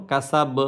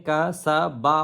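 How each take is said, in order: First: "কাসাব" ending on a bare b; "কাসাব" cut off at the final consonant; stopped final letter. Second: "কা, সা, বা" with the last vowel sounded; "বা" ends open on a clear a; full final vowel. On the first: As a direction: drop the last vowel and stop on the b of "কাসাব". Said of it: "শুধু হরফটা উচ্চারণ করবো". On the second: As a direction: give each syllable of "কা, সা, বা" its vowel. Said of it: "হওয়ার কথা". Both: Shown as a demonstration.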